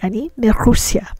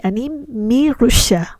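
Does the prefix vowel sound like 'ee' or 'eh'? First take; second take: eh; ee. First: The prefix is said with an 'eh' vowel. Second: The prefix is said with an 'ee' vowel. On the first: The speaker calls it right. "We say" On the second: The speaker calls it wrong. "We don't say"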